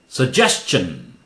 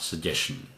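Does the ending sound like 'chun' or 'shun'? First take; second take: chun; shun. First: The ending sounds like 'chun'. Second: The ending sounds like 'shun'. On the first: The speaker calls it right. "takes tion sound" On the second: The speaker calls it wrong. "not shun sound"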